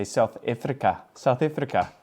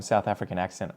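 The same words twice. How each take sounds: First: Imitated South African accent. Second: Said in the usual way. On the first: Shown as a demonstration. Vlogger showing how South Africans would say it, South African accent. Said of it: "I think they would say". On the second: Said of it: "with the, um, South African accent".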